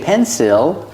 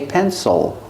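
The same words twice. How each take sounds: First: The last syllable has a clear short i vowel. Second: The last syllable has a short reduced vowel. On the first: The speaker calls it wrong. "We don't say pencil" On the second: The speaker calls it right. "we say pencil. Oh. Make a short sound"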